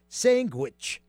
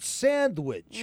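First: It is said in an Italian American accent. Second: It is said in a standard American accent. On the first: "we don't pronounce it that way. We call it sandwich" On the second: "To most people"

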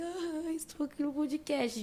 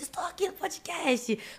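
First: It is said in a sad voice. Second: It is said in a nervous voice.

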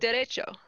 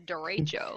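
First: It is said with a Spanish accent. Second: It is said with an American accent.

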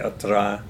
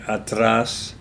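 First: The final s is dropped, costeño style. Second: The final s is pronounced.

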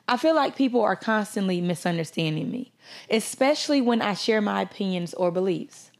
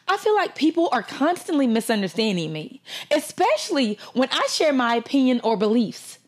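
First: It is read in a plain, normal voice. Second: It is read in a dramatic, acted voice.

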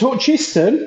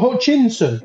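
First: The name is said without an n sound. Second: The name is said with an n sound. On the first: The speaker calls it right. "it's Hutchinson ... There's no N in the Hutchinson" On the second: The speaker calls it wrong. "and not Hutchinson"

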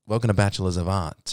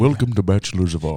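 First: It is said in his normal voice. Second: It is said in a put-on voice.

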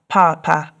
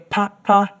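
First: The first syllable is high, the second low. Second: Both syllables are said on a low tone. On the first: It means dad. "which is a high tone and a low tone" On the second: It means fan. "So two low tones"

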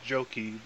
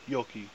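First: The name is said with an American pronunciation. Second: The name is said with a Finnish pronunciation. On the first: "the American version of it is" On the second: "in Finland, you would pronounce it"

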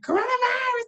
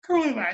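First: It is said in a put-on, exaggerated imitation voice. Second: It is said in a plain, ordinary voice. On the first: "Like, oh, here's [name]" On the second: "I no longer hear, like"

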